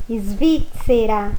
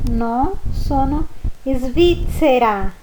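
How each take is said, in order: First: "svizzera" alone, very slow, zz as ts; isolated svizzera. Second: "svizzera" very slow with zz like pizza. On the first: Teacher repeating svizzera for the zz sound. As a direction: pull out "svizzera" slowly. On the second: Teacher showing the zz sound of pizza. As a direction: stretch "svizzera" clearly. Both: Shown as a demonstration. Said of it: "Ó o som da pizza".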